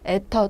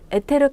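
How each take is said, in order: First: The word has two syllables, ending in 'teo'. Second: The word has three syllables, ending in 'teu-reu'. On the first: This is the official naming pronunciation. "정확하게 발음을 하자면 에터 또는 있어 라고 하는 것이 맞습니다" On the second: This is the older, familiar name. "에테르 가스 뭐 이런 식으로 여러분들이 알고 계시는 경우도"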